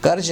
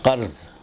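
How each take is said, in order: First: "कर्ज" with plain k and j ending; common mispronunciation. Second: "कर्ज" said as qarz, throaty q; Arabic-style "कर्ज", j turned to z; correct pronunciation. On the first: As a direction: say "कर्ज" with a j, not a z. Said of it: "ना बोलें". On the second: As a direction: say "कर्ज" with q and a final z. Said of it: "ये सही लफ्ज़ है". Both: Shown as a demonstration.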